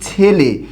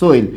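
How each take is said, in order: First: It is said in the standard Bengali form. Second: It is said in the Bogura-Rangpur regional form. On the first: "আমরা একটা শব্দ বলি ছেলে" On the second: "Bogura Rangpur অঞ্চলে এটাকে বলে সোইল"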